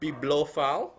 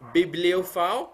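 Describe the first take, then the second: First: No i vowel is heard in the middle. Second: An i vowel is heard in the middle. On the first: The speaker calls it wrong. "not bibliophile" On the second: The speaker calls it right. "There is an I in between"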